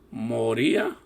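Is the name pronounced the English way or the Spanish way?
Spanish. The name is pronounced with a Spanish accent.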